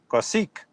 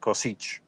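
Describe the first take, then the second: First: The surname is pronounced in a Western way. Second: The surname is pronounced in an Eastern way. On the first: The speaker calls it right. "the uh, Western way, which would be Amir Kosik" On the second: The speaker calls it wrong. "Western Eastern countries it's probably Kosic"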